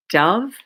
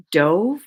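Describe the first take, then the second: First: Dove said DUV, short u, the bird. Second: Dove said DOHV, long o, past tense of dive; dove as in dived. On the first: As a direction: dove rhyming with love. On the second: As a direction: Dove rhyming with drove. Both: Shown as a demonstration. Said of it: "Same exact spelling".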